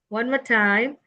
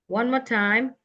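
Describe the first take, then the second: Both takes have the same delivery.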